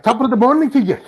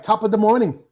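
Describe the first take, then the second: First: Put-on Irish accent. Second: High mock Irish greeting; Irish accent. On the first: Host showing guest the Irish sound, mock Irish accent. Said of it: "compared to the Irish accent". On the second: Host asking guest to say it, mock Irish accent. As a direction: say it high, with a put-on Irish lilt. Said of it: "Say, like".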